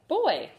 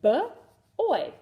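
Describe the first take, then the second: First: The sounds are blended smoothly into one word. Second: The sounds are said apart with a break.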